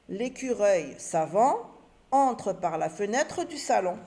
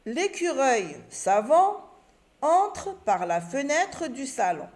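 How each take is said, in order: First: Said in the usual way. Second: Slow, careful read with a rising pause after savant; slow reading aloud. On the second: Shown as a demonstration. Teacher to pupils, reading the example sentence slowly. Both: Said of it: "Et j'oublie pas le point à la fin".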